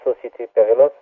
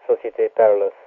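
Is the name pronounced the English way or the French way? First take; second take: French; English. First: The name is said with French pronunciation. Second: The name is said with English pronunciation. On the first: "in French it's called" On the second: "pronounce it in English"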